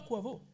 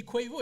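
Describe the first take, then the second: First: Said in the usual way. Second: "Quavo" said as kwaï-vo, pitched up; mother's pronunciation. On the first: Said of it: "elle dit pas [name]". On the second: Retold or imitated. Mimicking mother naming the rapper, "[name]" as kwaï-vo. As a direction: say "Quavo" with an extra i glide, kwaï-vo. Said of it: "avec l'intonation".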